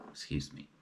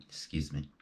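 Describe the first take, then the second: First: Whispered excuse me. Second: Said in the usual way. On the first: Real, not acted. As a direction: whisper the apology. Whispered apology after a slip.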